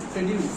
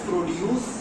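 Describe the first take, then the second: First: The first syllable is quick and subtle. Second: The first syllable is a full clear 'pro'. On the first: It is used as a verb. "যদি verb থাকে এরকম করে pronounce করবা" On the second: It is used as a noun. "নাম হলে প্রো"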